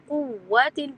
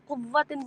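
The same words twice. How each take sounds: First: The vowel is smoothly lengthened without a hard w. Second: The w sound is doubled with heavy force. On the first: The speaker calls it right. "कुव्वतिन पढ़ा जाए लंबा करके" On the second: The speaker calls it wrong. "जानकर उस पर कुव्वतिन कुव्वतिन बोलना ये गलत है"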